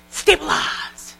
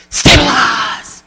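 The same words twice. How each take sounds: First: Slow whispered stabilize; whispered mantra. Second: Sharp gasp, then slow drawn-out stabilize; gasp, then slowly settle yourself; calming mantra. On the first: Speaker showing consultants a calming word. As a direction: breathe the word out slowly. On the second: Speaker demonstrating the meltdown whammy to consultants. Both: Shown as a demonstration. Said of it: "You're gonna go".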